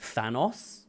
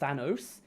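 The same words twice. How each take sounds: First: It is pronounced the British way. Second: It is pronounced the non-British way. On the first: "the British pronunciation is Thanos" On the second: "not Thanos"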